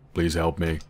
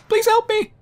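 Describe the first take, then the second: First: The voice is deep and low. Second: The voice is high and squeaky. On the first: "Maybe if I talk in a deeper and deeper voice" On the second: "High-pitched voice?"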